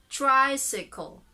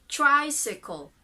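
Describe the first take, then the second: The two takes are said the same way.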